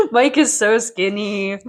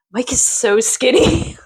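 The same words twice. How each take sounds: First: Laughing it out, slow. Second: Slow, breathless amazement; gasping surprise. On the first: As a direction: repeat it while chuckling. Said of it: "laughing repeat". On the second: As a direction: gasp before it, astonished. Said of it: "gasp reaction". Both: Real, not acted.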